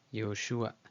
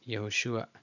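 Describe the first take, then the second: No difference in how they are said.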